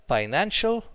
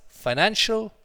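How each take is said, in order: No difference in how they are said.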